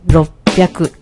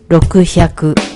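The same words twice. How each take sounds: First: It starts with clipped 'ro' and a catch before 'pyaku'. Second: It starts with full 'roku' followed by 'hyaku'. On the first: The speaker calls it right. "decimos 600" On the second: The speaker calls it wrong. "No decimos 600"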